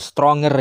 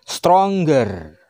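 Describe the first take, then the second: First: No hard g sound follows the ng sound. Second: A hard g sound follows the ng sound. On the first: The speaker calls it wrong. "bukan stronger ya" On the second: The speaker calls it right. "seakan-akan G-nya ada dua. Sehingga bacanya stronger"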